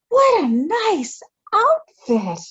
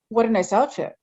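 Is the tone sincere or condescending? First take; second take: condescending; sincere. First: It is said condescendingly, as to a child. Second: It is said sincerely, as to an adult.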